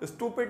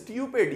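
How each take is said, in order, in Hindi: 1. u को सादा 'oo' बोला जाता है। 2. u को 'yoo' बोला जाता है। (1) "नहीं" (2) "यू को जरा सही तरह बोलें"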